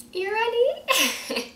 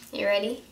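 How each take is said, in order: First: High, slow, put-on Guyanese voice; Guyanese accent. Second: Said in the usual way. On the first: Shown as a demonstration. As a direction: stretch it out in a thick Guyanese accent. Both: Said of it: "read it in a straight Guyanese accent".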